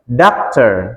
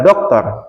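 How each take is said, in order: First: The vowel is drawn out long. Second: The vowel is short, said the Indonesian way. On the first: The speaker calls it right. "panjang ya, ada titiknya" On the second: The speaker calls it wrong. "Jadi bukan dokter"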